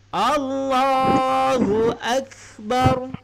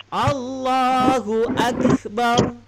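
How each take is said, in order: Both takes have the same delivery.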